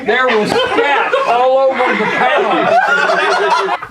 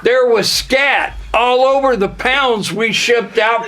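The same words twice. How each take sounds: First: Slow, high, laughing; laughing slowly. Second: Said in the usual way. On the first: Shown as a demonstration. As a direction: laugh through it. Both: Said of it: "repeated line".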